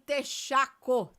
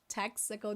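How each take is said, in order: First: It is pronounced the Portuguese way. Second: It is pronounced the English way. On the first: The speaker calls it wrong. "We don't say texaco. Texaco again is in Portuguese" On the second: The speaker calls it right. "We say Texaco in English"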